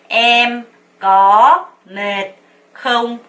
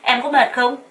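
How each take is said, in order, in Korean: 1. 각 단어를 천천히 따로따로 말해요. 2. 단어들이 감정을 담아 빠르게 자연스럽게 이어져요. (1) "하나하나씩 먼저 연습을 하는 거예요" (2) "이렇게 물어봅니다"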